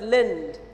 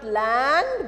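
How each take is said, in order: First: The vowel is a short reduced 'i' sound. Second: The vowel is a full open 'a' sound. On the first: The speaker calls it right. "but lind" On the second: The speaker calls it wrong. "not land"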